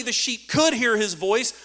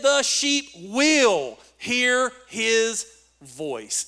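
First: Raised voice, picking out "could" for contrast; contrasting stress on could. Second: "will" stretched long and loud; slow right down and hammer "will"; emphatic stress on will. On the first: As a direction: lean on "could" as the weaker option. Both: Shown as a demonstration. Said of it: "It's emphatic".

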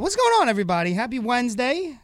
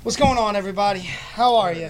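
First: High, bright hype greeting; hyped show intro. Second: Big hyped show opener; radio host greeting. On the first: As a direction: sell the opening with energy. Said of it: "show intro greeting". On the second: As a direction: greet the listeners like a DJ. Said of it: "radio show greeting". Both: Acted.

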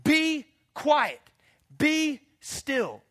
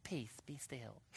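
First: High, loud stern command; commanding rebuke. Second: Much softer, timid "Peace, be still"; meek whisper-soft. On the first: Acted. Jesus ordering the wind and waves, loud. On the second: Retold or imitated. Mocking a weak Jesus, soft and timid. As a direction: say it limply, no authority. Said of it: "didn't get up and walk out".

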